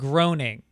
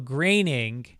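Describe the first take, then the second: First: The first syllable rhymes with groan. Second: The first syllable rhymes with rain. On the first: The speaker calls it wrong. "not groaning" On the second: The speaker calls it right. "pronounced like raining"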